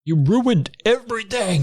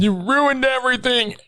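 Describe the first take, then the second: First: High, slow accusing cry; hammed-up high accusation; shrill villain. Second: Hammed-up high accusation; shrill villain. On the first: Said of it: "villain voiced". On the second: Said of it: "echoing villain line".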